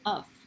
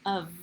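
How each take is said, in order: First: The word ends with an F sound. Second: The word ends with a V sound. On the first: The speaker calls it wrong. "the F doesn't sound like, we don't say of" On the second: The speaker calls it right. "we say of, it sounds like a V"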